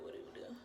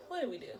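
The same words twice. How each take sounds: First: Breathy fading whisper of the question "What did we do?". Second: Said in the usual way. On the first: Shown as a demonstration. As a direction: whisper it, no voice left.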